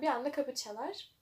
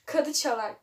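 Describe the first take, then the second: First: Kapı çalar with a clear p; kapı said properly with p; corrected kapı. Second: Reads kadı çalar as written; kadı with a d, as the typo; misreading kadı. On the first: ("kapı" p ile doğru okunur) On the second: ("kadı" d ile okunur) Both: Shown as a demonstration. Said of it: "Kapı çalar olacak yani".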